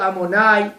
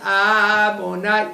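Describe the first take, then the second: First: The stress is on the last syllable. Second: The stress falls before the last syllable. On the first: The speaker calls it right. "il faut dire Amonai, milra" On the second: The speaker calls it wrong. "c'est faux"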